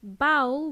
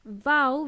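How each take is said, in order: First: Bowl said as "bowel", b punched; Bowl, firm b, rhyming with owl; initial b. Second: Vowel with a strong v, punched; Vowel, buzzed v, loud and clear; initial v. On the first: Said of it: "with a B". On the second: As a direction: say "Vowel" as "vowl" with a V. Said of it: "with a V". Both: Shown as a demonstration.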